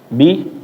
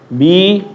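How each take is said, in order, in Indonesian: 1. Vokalnya diucapkan singkat. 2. Vokalnya diucapkan lebih panjang.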